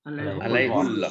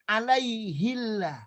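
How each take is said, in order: First: The vowel before 'llah' is a 'u' sound. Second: The vowel before 'llah' is an 'i' sound. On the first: This is how the verse is actually recited. "tapi ini apa dibacanya? Alaihullah" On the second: This is the form the grammar would normally require. "harusnya ya. dibaca apa? Alaihillah"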